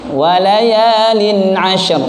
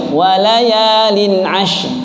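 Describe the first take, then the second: No difference in how they are said.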